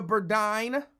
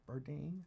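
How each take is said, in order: First: "Burdine" with a long I, bur-DYNE; Burdine rhyming with "dine". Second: Softer "Burdine" with a long E, bur-DEEN; Burdine rhyming with "deen". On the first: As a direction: say "Burdine" so it ends like "nine". Tries two readings of a surname. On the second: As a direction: say "Burdine" so it ends like "seen". Second reading of the surname. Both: Real, not acted.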